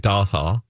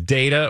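First: The word is said in a fancy, posh way. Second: The word is said in a plain, everyday way.

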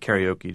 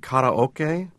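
First: The word is said with English-style pronunciation. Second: The word is said with Japanese-style pronunciation. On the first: This is the familiar pronunciation used by Westerners. "I'm going to stick with karaoke" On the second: This is the original pronunciation of the term. "it's actually karaoke, which is a Japanese term"

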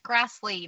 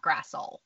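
First: The name ends with a final ee vowel. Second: The name ends on the consonant sound l. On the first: The speaker calls it right. "I believe it's Grassley" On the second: The speaker calls it wrong. "not Grassl"

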